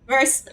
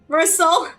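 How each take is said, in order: First: The name is cut short in an English-like way. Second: The name is said fully in a French-like way. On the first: The speaker calls it wrong. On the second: The speaker calls it right.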